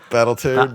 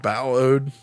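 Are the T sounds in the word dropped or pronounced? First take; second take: pronounced; dropped. First: The T sounds are clearly pronounced in the word. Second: The T sounds are dropped from the word.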